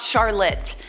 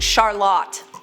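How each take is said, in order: First: The name is said the North American way. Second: The name is said the European way. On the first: This is how most people say the name. The speaker calls it wrong. "not Charlotte" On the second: This is how the name was meant to be said. The speaker calls it right. "my name is actually pronounced Charlotte"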